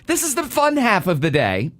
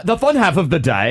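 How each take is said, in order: First: Said in the usual way. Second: Playful, higher mock-British accent; put-on British vowels, amused. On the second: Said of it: "singing in British accents off the air".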